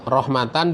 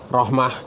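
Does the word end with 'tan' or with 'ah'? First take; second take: tan; ah. First: The word ends with a t and n sound. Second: The word ends with a breathy h sound. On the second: "dibaca rahmah dengan hak"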